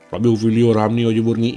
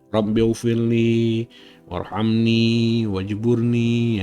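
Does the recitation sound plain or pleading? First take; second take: plain; pleading. First: It is recited in a plain, unpleading tone. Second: It is recited in a pleading, imploring tone. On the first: The words are read without truly asking. The speaker calls it wrong. "Itu bukan memohon" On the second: The speaker is truly begging for something. The speaker calls it right. "ya seperti itu"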